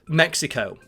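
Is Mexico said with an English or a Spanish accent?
English. It is said with a plain English pronunciation. "Mexico is perfectly acceptable"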